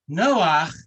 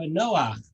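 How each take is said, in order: First: Noach said louder, breathed out as a relieved sigh; sigh of relief. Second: Said in the usual way. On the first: Shown as a demonstration. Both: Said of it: "A sigh of relief in Hebrew".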